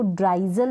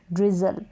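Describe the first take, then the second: First: ड्राइजल starting like the word "dry"; wrong "ai" vowel. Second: ड्रिजल with a short i, "driz-ul". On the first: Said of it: "अब इसको ड्राइजल नहीं पढ़ेंगे". (ड्राइजल, आई की आवाज़ के साथ) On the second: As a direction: keep the first vowel short in ड्रिजल. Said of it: "इसको पढ़ेंगे डीआर को ड्र ई जल". (ड्रिजल, छोटी इ के साथ) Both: Shown as a demonstration.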